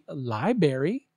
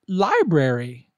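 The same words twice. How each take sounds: First: The word is said without the first R, like 'li-berry'. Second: The word is said with the first R, like 'li-brary'. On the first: The speaker calls it wrong. "don't say library" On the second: The speaker calls it right. "Say library"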